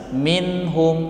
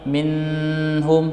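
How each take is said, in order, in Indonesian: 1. Bunyi n pendek dan jelas tanpa jeda. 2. Bunyi n ditahan panjang dengan dengung sengau. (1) "dibaca dengan jelas" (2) "Tidak boleh dibaca dengan min, eh, minhum"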